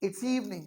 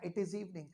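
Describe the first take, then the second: First: "It is" is shortened into one syllable. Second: "It is" is said as two full words.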